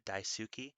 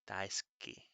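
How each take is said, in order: First: The u after s is fully voiced. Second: The u after s is whispered, nearly silent. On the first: "some people will pronounce it daisuki" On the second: "that little pause kind of sound is the whispered U in daisuki"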